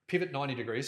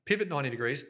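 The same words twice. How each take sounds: First: Turned away from the microphone, a little faint; off-mic. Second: Said in the usual way. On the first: Shown as a demonstration. Host turned away from the mic while demonstrating. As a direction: speak side-on to the mic. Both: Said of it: "Sorry, I'm not facing the camera or the microphone".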